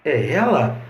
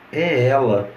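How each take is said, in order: First: "É ela?" com entonação de pergunta, final subindo; tom de pergunta. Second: Said in the usual way. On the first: Shown as a demonstration. ("É ela?" com a melodia final subindo, como pergunta) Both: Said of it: "as entonações vão marcar as frases".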